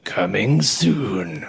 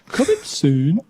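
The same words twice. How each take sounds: First: It is said in a deep trailer voice. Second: It is said in a broad Birmingham accent.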